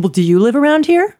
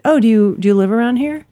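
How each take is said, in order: First: Retold challenge, YOU pitched high and louder; combative stress on YOU. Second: Said in the usual way. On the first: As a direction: throw the question back, leaning hard on "you". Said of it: "It was, like, combative".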